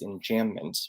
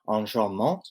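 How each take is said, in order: First: The word has an ordinary English pronunciation. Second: The word has a French-style pronunciation.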